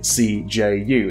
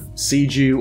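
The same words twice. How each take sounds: First: It is spoken as three separate letters. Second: It is spoken as a single word. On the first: The speaker calls it right. "as I'm saying the letters, like it's an acronym" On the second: The speaker calls it wrong. "instead of"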